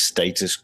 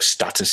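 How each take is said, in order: First: STATUS with a long A, as in "state". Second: STATUS with a short flat A, as in "stat". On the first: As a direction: say STATUS as "STAY-tus". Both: Shown as a demonstration. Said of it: "you say tomato, I say tomato".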